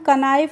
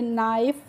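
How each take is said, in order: First: A k sound is pronounced before the n. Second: The word begins directly with the n sound. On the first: The speaker calls it wrong. "इसको हम कनाइफ नहीं पढ़ेंगे" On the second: The speaker calls it right. "नाइफ पढ़ेंगे"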